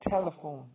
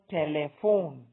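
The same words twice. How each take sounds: First: The stress is on the first syllable. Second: The stress is not on the first syllable. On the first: The speaker calls it right. "it's telephone" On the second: The speaker calls it wrong. "not telephone"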